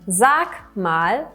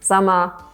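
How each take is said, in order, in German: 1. Jeder Laut wird deutlich und einzeln ausgesprochen. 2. Die Wörter werden verkürzt und ineinander verschliffen. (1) "aus einem Sag mal" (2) "dass wir Worte oft miteinander verbinden oder die Endungen verschlucken"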